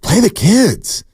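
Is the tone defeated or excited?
excited. The tone sounds excited and upbeat. The speaker is eager about the young players. "that says to me, you're just excited about these kids"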